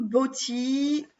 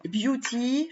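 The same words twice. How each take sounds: First: "Beauty" said as French "boti", no "you" sound; "Beauty" read the French way, "bo-ti", before correcting; first try at Beauty. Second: "Beauty" said the English way, "byoo-ti", with a slight rise; "Beauty" redone as "byoo-ti", unsure it's right; corrected English. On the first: Vlogger trying the English name, "Beauty" said "boti". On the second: Vlogger correcting her English, "Beauty" as "byoo-ti". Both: Shown as a demonstration. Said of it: "je crois que c'est comme ça qu'on dit".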